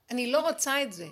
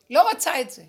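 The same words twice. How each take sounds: First: Said in the usual way. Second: A sudden loud לא רוצה את זה, hit hard; loud outburst on לא רוצה את זה; loud refusal. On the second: Real, not acted. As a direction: push it away with force. Refusing, pushing it away.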